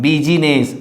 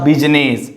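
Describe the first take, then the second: First: BUSINESS in three syllables, middle I voiced; wrong sounded I. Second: BUSINESS in two syllables, middle I dropped; silent I. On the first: Teacher shows students the mistake, BUSINESS with the I sounded. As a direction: say BUSINESS as "bi-zi-ness". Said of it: "So not business". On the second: Teacher corrects for students, BUSINESS with silent I. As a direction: say BUSINESS as "biz-ness". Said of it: "it's a business". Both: Shown as a demonstration.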